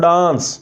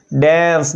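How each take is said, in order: First: Dance with a broad open aa; the common mistake, dance with aa; wrong dance. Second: Dance with the vowel of "cat"; correct dance. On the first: Teacher imitating the students' wrong dance vowel. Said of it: "this is not dance". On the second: Teacher giving students the correct dance vowel. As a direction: say dance with a flat front a. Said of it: "ए की sound आ रही है यहाँ पे". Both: Shown as a demonstration.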